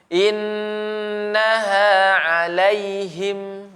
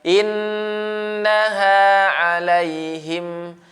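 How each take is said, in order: Both takes have the same delivery.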